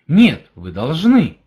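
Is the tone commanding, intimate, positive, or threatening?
positive. It is said in a positive, affirming tone. "Это положительность"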